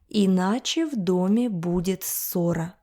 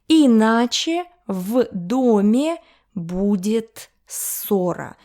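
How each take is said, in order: First: The sentence is read at a faster pace. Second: The sentence is read at a slower pace.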